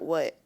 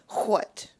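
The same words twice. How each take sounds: First: The word starts with plain w, no breathy h. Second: The word starts with breathy wh and a clear t. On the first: "not what" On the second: "She would pronounce the t, the W and the H"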